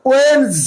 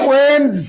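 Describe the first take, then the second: No difference in how they are said.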